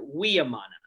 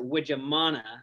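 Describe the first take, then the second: First: The surname is said with a Dutch pronunciation. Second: The surname is said with an American pronunciation. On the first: "in Holland, ... They pronounce it" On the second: "in America, we pronounce it"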